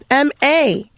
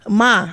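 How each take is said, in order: First: The name is said as two letters. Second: The name is said as one syllable. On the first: The speaker calls it right. "it's M A" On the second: The speaker calls it wrong. "I really love young young Ma. Like who's that?"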